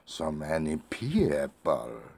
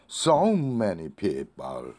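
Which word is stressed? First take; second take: people; so. First: The word "people" is said higher and stronger. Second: The word "so" is said higher and stronger. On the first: "people을 강조하고 싶으면" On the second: "so를 강조하고 싶으면"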